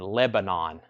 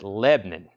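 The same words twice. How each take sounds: First: All of its syllables are said clearly. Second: It is squeezed together into one syllable.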